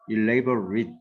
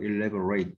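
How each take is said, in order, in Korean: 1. 마지막 음절은 약하고 줄어들어요. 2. 마지막 음절은 꽉 차게, 'ate'처럼 발음해요. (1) "발음만 살짝 elaborate 하면은 형용사고" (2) "elaborate 하면은 동사가 되죠"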